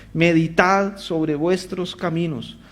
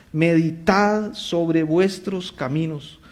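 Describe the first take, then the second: Both takes have the same delivery.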